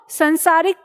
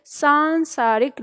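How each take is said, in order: First: संसारिक with a short first vowel, सं-सा-रिक; the wrong form संसारिक, first syllable short; common misspelling. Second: सांसारिक with a long first vowel, सां-सा-रिक, said a little slowly; the right form सांसारिक, stretch the long सां; correct spelling. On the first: Teacher showing students the mistaken form संसारिक, short सं. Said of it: "गलती क्या होती है कि कुछ लोग". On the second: Teacher giving students the correct सांसारिक, long सां, a bit slow. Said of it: "इसे क्या लिखना है". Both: Shown as a demonstration.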